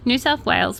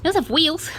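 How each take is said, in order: First: Said in the usual way. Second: "Wales" said as "Weels", pitched high; mispronounced Wales. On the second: Real, not acted. Newsreader tripping over the state name, "Wales" as "Weels". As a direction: say "Wales" with an ee vowel, like "wheels". Playing with her slip on Wales.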